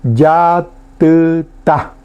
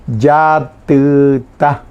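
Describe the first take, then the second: First: "yatuta" said slowly, syllable by syllable; Guarani word. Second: "Yatuta" repeated slowly, each syllable clear; Guarani word. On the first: Teacher modelling "yatuta" for the class, slow and clear. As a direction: draw out "yatuta" clearly for learners. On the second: Teacher repeating "Yatuta" for students, slow and clear. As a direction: say "Yatuta" slowly again for learners. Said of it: "ahí viene una de las variantes". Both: Shown as a demonstration.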